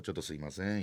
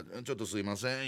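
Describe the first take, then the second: First: 「ちょっとすいません」 murmured softer still, quiet and polite; small voice. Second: Softly apologetic 「ちょっとすいません」 said low and quiet; small voice. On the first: As an adult passing through the boys, quiet polite murmur. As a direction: slip 「ちょっとすいません」 out barely audible. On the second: Squeezing past the boys, quiet small-voiced apology. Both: Retold or imitated. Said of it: "小さい声でよ".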